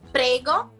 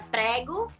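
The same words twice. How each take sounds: First: It is said with a native-like Italian accent. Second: It is said with a Brazilian Portuguese accent. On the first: This is how it sounds now. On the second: This is how it was said on arrival.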